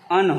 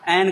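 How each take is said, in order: First: The word is a short, weak 'un' sound. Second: The word is a full 'an' sound. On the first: This is the normal form in ordinary speech. "एन का उच्चारण अन होता है" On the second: The word is said on its own or for emphasis. "एन को एन कहा जाएगा"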